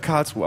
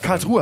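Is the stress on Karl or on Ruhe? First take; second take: Karl; Ruhe. First: The stress is on the first part, Karl. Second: The stress is on the second part, Ruhe. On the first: The speaker calls it right. "Ich würde sagen Karlsruhe" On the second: The speaker calls it wrong. "Karlsruhe hast du gesagt. Betonung auf Ruhe"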